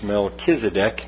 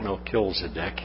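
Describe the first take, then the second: First: The name is said without an extra L. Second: The name is said with an extra L. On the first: The speaker calls it right. "It's Melchizedek" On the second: The speaker calls it wrong. "not Melchizedek"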